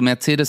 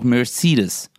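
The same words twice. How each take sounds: First: The name is said with a German pronunciation. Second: The name is said with an American pronunciation.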